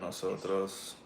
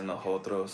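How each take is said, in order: First: The s sounds are clear hissing s sounds. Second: The s sounds are breathy, like an h. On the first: "instead of" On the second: "they say nosotros"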